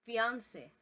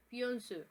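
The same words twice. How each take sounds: First: FIANCÉ as fee-ahn-say; English pronunciation. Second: FIANCÉ as fyon-seh with nasal vowel; French pronunciation. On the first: Teacher compares languages, English pronunciation of fiancé. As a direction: say "fiancé" the English way, ending in a clear -say. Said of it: "in English". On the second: Teacher compares languages, French pronunciation of fiancé. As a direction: say "fiancé" the French way, two syllables, weight at the end. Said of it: "in French". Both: Shown as a demonstration.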